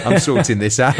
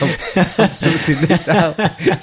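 First: Said in the usual way. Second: Slow mock-determined, laughing through it. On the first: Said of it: "repeated with a laugh". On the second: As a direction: drag it out while laughing. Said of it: "repeated slower, laughing".

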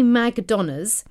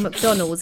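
First: "McDonald's" said as "Mag-donners"; accent hack pronunciation. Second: Said in the usual way. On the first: Shown as a demonstration. Host reads out listener's accent hack, "McDonald's" as "Mag-donners". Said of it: "sounds like you're saying McDonald's in a Nigerian". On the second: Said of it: "If you say McDonald's".

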